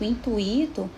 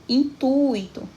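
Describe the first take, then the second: First: "intuito" said in-tu-I-to, U and I split; wrong stress on I. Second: "intuito" slow and raised, long strong U in in-TUI-to; stress on U. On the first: Teacher shows class the mistake, "intuito" stressed on the I. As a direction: break the diphthong in "intuito", leaning on the I. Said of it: "não está certo". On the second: Teacher models correct word for class, "intuito" stressed on TU. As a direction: stretch the U of "intuito", I gliding after it. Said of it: "especialmente no u". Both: Shown as a demonstration.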